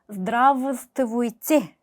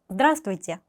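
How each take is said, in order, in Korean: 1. 중간에 있는 자음은 모두 발음해요. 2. 중간의 몇몇 자음은 생략하고 흘려서 발음해요. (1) "그대로 발음을 하면은 Здравствуйте 라고 들리지만" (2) "강세를 찍고 나머지 발음은 흘린다"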